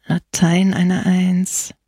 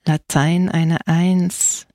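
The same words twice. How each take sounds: First: Slow, mildly reproachful. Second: Slow, understated growl. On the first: Old priest repeating the boy's bad grade, reproachful. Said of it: "wiederholte der alte Bolis vorwurfsvoll". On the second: Priest reading the boy's Latin grade, growling. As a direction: growl it out, dragging each word. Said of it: "knurrte der Pfarrer". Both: A narrator's reading.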